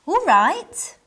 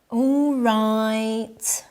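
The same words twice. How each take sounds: First: "All right" louder and higher, rising at the end; "All right" bursting with eagerness at an invitation; eager all right. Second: Flat, unwilling "All right"; "All right" said flat and grudging, like a chore; reluctant all right. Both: Shown as a demonstration. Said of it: "Intonation can change the meaning".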